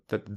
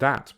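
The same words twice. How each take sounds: First: The word is said quickly with a reduced vowel. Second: The word is said fully with normal stress. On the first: It is a function word. "the first word is pronounced in a weak form" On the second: It is a content word. "the second has normal stress"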